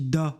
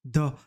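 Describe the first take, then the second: First: The vowel is an open o sound. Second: The same.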